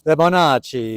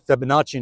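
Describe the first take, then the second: First: Fibonacci as fe-ba-NAH-chee, a mock Italian accent. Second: Said in the usual way. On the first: Shown as a demonstration. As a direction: roll Fibonacci out Italian-style, a bit louder. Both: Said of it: "can you do your best Italian accent".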